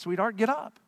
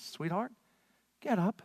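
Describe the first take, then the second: First: Said in the usual way. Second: Softer, gentle coaxing sweetheart; tender wake-up. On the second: Retold or imitated. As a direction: wake her gently, almost soothing. Simply takes this little girl by the hand.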